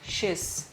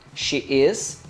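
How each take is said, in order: First: The words are squeezed into one short syllable. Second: Two full words are said separately.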